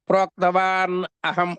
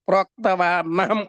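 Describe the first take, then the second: First: The two words are said separately. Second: The two words are run together.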